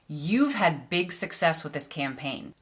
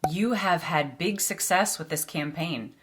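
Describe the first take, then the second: First: You have is contracted to one syllable. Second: You have is said as two full words. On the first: The speaker calls it right. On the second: The speaker calls it wrong.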